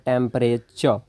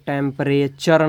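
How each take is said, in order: First: The word stops at the final ch sound. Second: The word ends with a sounded final r. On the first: The speaker calls it right. "च last में च पे आपको stop कर देना है" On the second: The speaker calls it wrong. "इसको टेम्परेचर नहीं क- बोलते हैं"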